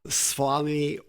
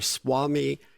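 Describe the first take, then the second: First: The consonant after the S is a V sound. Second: The consonant after the S is a W sound. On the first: "they pronounce it V" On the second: "and in some W"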